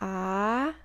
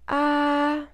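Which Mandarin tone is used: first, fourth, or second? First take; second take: second; first. First: It is said with the second tone. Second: It is said with the first tone. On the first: "second tone" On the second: "So the first tone"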